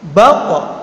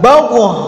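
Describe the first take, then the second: First: The final consonant is held without release. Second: The final consonant is released with a bounce. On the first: The speaker calls it right. "jadi suaranya terta, tertahan" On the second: The speaker calls it wrong. "Tidak baqo"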